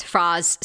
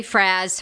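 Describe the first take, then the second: First: "Fraz" with an open ah vowel, like Frahz; another wrong pronunciation. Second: "Fraz" said with a short a, rhyming with jazz; wrong pronunciation. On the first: Host mimics another fan mispronouncing her name, "Frahz" with an open ah. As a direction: stretch the a back in the throat, "Frahz". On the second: Host mimics fans mangling her nickname, "Fraz" rhymed with jazz. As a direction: mispronounce it as "Fraz", the a as in cat. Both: Retold or imitated. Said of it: "you know, they say Fraze".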